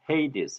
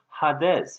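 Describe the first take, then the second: First: It starts with 'hay', then 'dees'. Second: It starts with 'ha', then 'des'. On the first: "영어로는 헤이디스" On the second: "일반 신학교에서는 하데스 이렇게 발음하는데"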